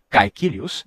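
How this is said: The first vowel sounds like 'ai'. This is the standard city pronunciation. "não se dizia Caecilius nem Praetor"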